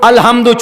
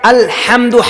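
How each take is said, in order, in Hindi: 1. ह की आवाज़ हल्की और नरम है। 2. ह की आवाज़ गले की गहराई से आती है। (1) "छोटे हाथ के साथ" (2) "हा निकालेंगे"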